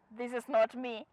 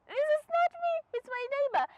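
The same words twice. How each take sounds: First: Said in the usual way. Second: Very high, squealed comic protest; high-pitched mock denial. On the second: Embarrassed driver blaming the neighbour, high-pitched squeal. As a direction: squeal it, disowning the blunder.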